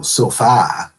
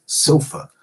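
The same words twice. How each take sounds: First: "sofa" with its final vowel said full and clear, like "sofah"; "sofa" carefully articulated, both vowels full. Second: "sofa" with its last vowel reduced to a quick schwa "uh"; "sofa" with a slightly higher pitch, final vowel reduced to uh; typical American reduction. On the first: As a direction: say "sofa" slowly enough that the last vowel is identifiable. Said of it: "You can go sofa". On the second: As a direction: say "sofa" casually, letting the last vowel collapse. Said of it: "as a typical American does". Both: Shown as a demonstration.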